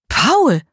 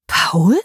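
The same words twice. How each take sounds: First: Höher und etwas lauter, erschrocken; fassungslos. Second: Said in the usual way. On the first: Acted. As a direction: den Namen entsetzt ausstoßen. Marie recognises her man. (Marie erkennt entsetzt ihren Freund bei Susanne)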